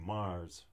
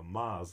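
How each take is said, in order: First: It is said in a neutral accent. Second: It is said in a Massachusetts accent.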